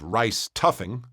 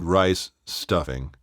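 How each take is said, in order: First: The s sound stays on the first word. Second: A clear pause separates the two words. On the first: The speaker calls it wrong. "you either have rice tuffing" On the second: The speaker calls it right. "it has to be rice, pause, stuffing"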